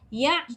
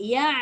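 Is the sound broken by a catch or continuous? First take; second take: broken; continuous. First: The sound is cut off by a catch. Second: The sound flows on without any break. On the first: The speaker calls it wrong. "dia terputus, bila putus nanti ain tu dia pergi hamzah. Salah lah" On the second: The speaker calls it right. "jangan putuskan. Daripada ya tadi tu, terus tolak a keluar balik"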